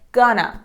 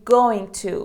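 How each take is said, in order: First: The words are run together in a contraction. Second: Each word is said fully and separately. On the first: It sounds casual. "contractions that are so common while you're speaking are gonna" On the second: It sounds formal. "instead of saying going to"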